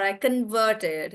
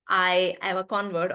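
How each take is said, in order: First: Converted with VERT stressed, as a verb; weight on the second syllable of converted. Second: Convert with CON stressed, as a noun; weight on the front syllable of convert. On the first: Teacher giving a political example, stress on VERT in converted. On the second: Teacher giving a political example, stress on CON in convert. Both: Shown as a demonstration. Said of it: "the syllable stress moves from the front".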